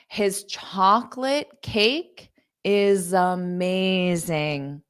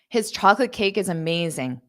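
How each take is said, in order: First: The sentence is spoken at a slow pace. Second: The sentence is spoken at a fast pace. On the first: "I'll say it slow" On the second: "So I'll say it fast"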